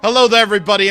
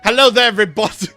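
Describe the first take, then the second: First: It is said in his usual non-British accent. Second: It is said in a British accent.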